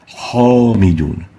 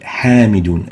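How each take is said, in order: First: The first consonant is heavy and velarized. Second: The first consonant is light and thin. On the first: The speaker calls it wrong. "and not" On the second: The speaker calls it right. "So the ha is attenuated"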